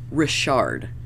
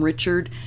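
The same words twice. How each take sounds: First: The name has a French-style pronunciation. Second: The name has the usual English pronunciation. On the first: The speaker calls it right. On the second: The speaker calls it wrong.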